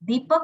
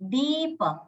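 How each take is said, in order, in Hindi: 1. पहला स्वर छोटा है। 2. पहला स्वर लंबा है। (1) "દીપક નથી" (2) "દીર્ઘ છે, એ રસ્વ નથી"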